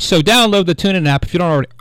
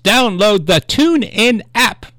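First: Rushed, run-together plug; talking too fast. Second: Slow, deliberate, higher-pitched plug. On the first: Radio host excitedly plugging an app, talking too fast. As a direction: rattle it off in a hurry. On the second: Radio host correcting a rushed app plug, slowed down. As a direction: say it slowly, every word spaced out. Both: Real, not acted. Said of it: "I'm talking too fast".

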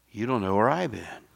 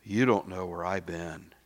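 First: "where I'VE been", louder, hit "I've"; stress on I've. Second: "you DON'T know where I've been", hit "don't"; quoting a congregant. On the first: Acted. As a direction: turn it back with weight on "I've". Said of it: "Guess what?". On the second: Retold or imitated.

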